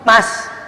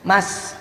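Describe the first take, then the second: First: It is called somewhat higher in pitch. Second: It is called at a normal pitch.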